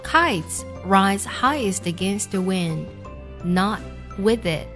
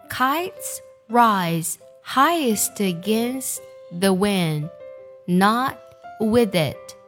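First: The sentence is read at a normal pace. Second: The sentence is read at a slow pace.

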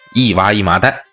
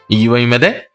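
First: The words are said slowly and clearly. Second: The words are run together and slurred. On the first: "这慢点说呀" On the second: "连起来呀，再带点含混的口音呢"

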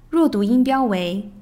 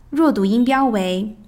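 No difference in how they are said.

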